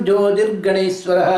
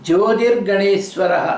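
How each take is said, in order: No difference in how they are said.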